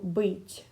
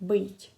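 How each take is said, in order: First: The final consonant is soft, with a slight y-glide. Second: The same.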